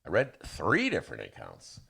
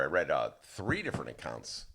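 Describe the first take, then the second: First: Announcer read, three stressed and falling; plain radio voice with three stressed; radio inflection. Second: Announcer lilt, three leaned on; a touch of radio announcer on three; radio inflection. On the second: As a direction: read it like a radio newsman. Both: Shown as a demonstration. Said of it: "did you notice the radio inflection?".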